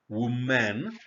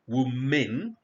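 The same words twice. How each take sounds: First: WOMAN with a full MAN second syllable; singular contrast. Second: WOMEN with a clearly sounded, rising last syllable MEN; plural contrast. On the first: Teacher sets singular against plural, WOMAN with a full MAN ending. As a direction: say WOMAN as WUU-MAN, both syllables clear. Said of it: "as opposed to woman". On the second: Teacher contrasts plural with singular, WOMEN with a full MEN ending. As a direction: lift the end of WOMEN, MEN fully voiced. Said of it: "when it is in the plural form". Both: Shown as a demonstration.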